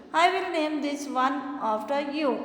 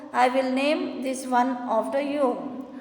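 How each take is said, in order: Both takes have the same delivery.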